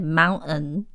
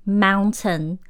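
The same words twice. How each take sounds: First: British "mountain" with a glottal stop for the T; dropped T. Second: Said in the usual way. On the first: Shown as a demonstration. Teacher showing how some Brits say it, T dropped in "mountain". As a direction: say "mountain" as moun-un, no T. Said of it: "有的人会念mountain". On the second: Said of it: "都不会念T".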